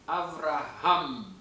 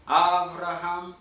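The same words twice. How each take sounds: First: The stress falls on the final syllable. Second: The stress falls before the final syllable. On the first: The speaker calls it right. "ההברה המותאמת במילה אברהם היא עם" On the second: The speaker calls it wrong. "אנחנו לא נאמר אברהם"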